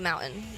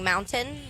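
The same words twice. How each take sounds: First: The t in the middle is dropped. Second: The t in the middle is clearly pronounced. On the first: "I want to just say mountain" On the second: "I have to really think about saying mountain"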